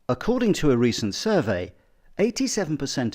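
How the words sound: Long, choppy pauses break up the phrases. The speaker calls it wrong. "it was just a bit too jagged and a bit too staccato"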